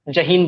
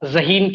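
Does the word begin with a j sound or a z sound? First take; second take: j sound; z sound. First: The word begins with a j sound. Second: The word begins with a z sound. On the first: The speaker calls it wrong. "जहीन बोल दिया" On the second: The speaker calls it right. "ज़हीन की जगह"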